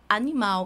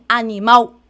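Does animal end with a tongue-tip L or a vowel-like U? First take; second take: L; U. First: The final sound is a tongue-tip L. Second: The final sound is a vowel-like U. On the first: The speaker calls it right. "Você fala animal. E a, a minha língua toca na pontinha da boca" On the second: The speaker calls it wrong. "você não fala assim, animal, U"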